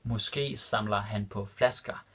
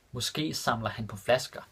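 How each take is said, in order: First: Måske samler han på flasker said slowly and distinctly; careful slow repeat for students; slow and clear. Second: Said in the usual way. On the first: Shown as a demonstration. Teacher repeating the Danish example for learners, slow and clear. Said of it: "repeated slower for learners". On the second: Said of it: "repeated slower".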